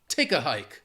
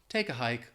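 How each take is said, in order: First: It is said forcefully with strong emphasis. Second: It is said mildly without strong emphasis. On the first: The speaker really wants the person gone. The speaker calls it right. "Really try to capture that emphasis and intonation" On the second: The listener may not take it seriously. The speaker calls it wrong. "it just doesn't mean the same if you're like"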